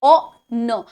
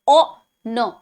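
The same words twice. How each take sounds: No difference in how they are said.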